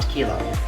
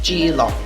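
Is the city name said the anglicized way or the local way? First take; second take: anglicized; local. First: The name is said the anglicized way. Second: The name is said the local way. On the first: The speaker calls it wrong. "the Englishization" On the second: The speaker calls it right. "the actual way you pronounce it"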